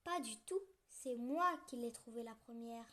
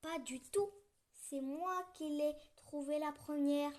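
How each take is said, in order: First: Indignant. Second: A touch louder, indignant mouse; mild indignation. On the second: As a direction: protest your claim to the mitten. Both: Acted. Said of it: "s'indigne la petite souris".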